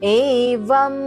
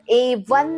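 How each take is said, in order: First: The word ends in an m sound. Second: The word ends in an n sound. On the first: The speaker calls it right. "म चा sound देणार आहोत" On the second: The speaker calls it wrong. "एवन नाही होणार ते"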